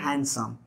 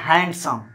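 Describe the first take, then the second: First: हैंडसम said as "han-sum", without its D; silent D. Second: हैंडसम with a clear D between n and s; D sounded. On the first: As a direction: drop the D in हैंडसम, n straight into s. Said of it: "डी जो है silent रखा जाता है". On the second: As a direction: say "hand" fully in हैंडसम. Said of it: "इसको लोग बोलते हैं". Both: Shown as a demonstration.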